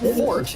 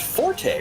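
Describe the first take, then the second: First: The word ends on a plain 't' sound. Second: The word ends with an 'ay' vowel sound. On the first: The speaker calls it right. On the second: The speaker calls it wrong.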